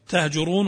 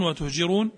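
First: "تهجرون" as "tahjurun", a on the ta and u on the jim; first variant reading. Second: "وتهجرون" as "wa-tuhjirun", u on the ta and i on the jim; second variant reading. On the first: Teacher giving a reading that changes meaning, "تهجرون" said tahjurun. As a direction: say "تهجرون" with open ta: tah-ju-run. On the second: Teacher contrasting a reading that changes meaning, "وتهجرون" said wa-tuhjirun. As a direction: say "وتهجرون" with rounded ta: wa-tuh-ji-run. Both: Shown as a demonstration. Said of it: "يختلف المعنى".

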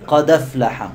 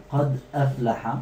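First: No glottal stop, the d carries the a into أفلح; dropped hamza. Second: قد أفلح as two words, glottal stop before أفلح; full hamza. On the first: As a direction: run قد أفلح together as qadaflaha. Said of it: "ونحذف الهمزة". (قد أفلح بالنقل وحذف الهمزة) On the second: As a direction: keep قد closed, then a separate أفلح. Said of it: "تنقل حركة الهمزة للساكن وتحذف الهمزة". (قد أفلح بتحقيق الهمزة) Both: Shown as a demonstration.

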